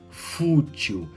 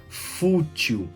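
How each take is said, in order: Both takes have the same delivery.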